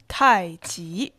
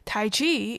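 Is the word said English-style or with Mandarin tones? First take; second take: Mandarin tones; English-style. First: It is said with Mandarin tones on each syllable. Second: It is said English-style without Mandarin tones.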